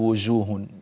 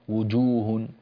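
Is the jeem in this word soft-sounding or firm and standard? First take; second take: soft; firm. First: The jeem is given a soft, nonstandard sound. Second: The jeem is given a firm, standard sound. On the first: The speaker calls it wrong. "لا تقول وجوه" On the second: The speaker calls it right. "وجوه هكذا"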